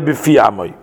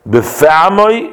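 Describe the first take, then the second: First: The vowel after the f is an i sound. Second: The vowel after the f is an e sound. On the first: The speaker calls it wrong. "not befi amoy" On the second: The speaker calls it right. "we say befe"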